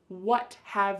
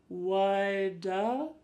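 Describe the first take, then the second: First: Both words are said fully and separately. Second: The words blur into one word with a D sound. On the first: "we have what have you got?" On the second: "But it sounds like woulda"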